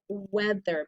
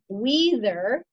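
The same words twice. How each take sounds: First: The first vowel is a short E sound. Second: The first vowel is a long E sound. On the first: "that E A has a short vowel sound" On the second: "It should be weather"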